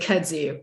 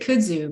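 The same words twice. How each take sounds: First: It is said with a Southern US pronunciation. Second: It is said with a Japanese-influenced pronunciation. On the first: This is how Southerners usually say it. "I am Southern, but didn't say kudzu" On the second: This is how someone who lived in Japan says it. "I pronounced it kudzu because I spent a little time in Japan"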